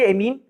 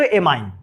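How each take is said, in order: First: It is said the Hindi way, ending in 'een'. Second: It is said the English way, ending in 'ine'. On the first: "हम लोग हिंदी में पढ़ेंगे एमीन" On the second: "अगर अंग्रेजी में पढ़ेंगे तो एमाइन"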